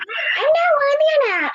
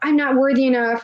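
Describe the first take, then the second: First: It is said in a squeaky Mickey Mouse voice. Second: It is said in a normal voice.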